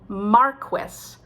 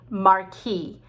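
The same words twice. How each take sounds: First: It is said the English way. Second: It is said the French way. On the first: "in England, it's called marquis" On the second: "trying to say it the French way"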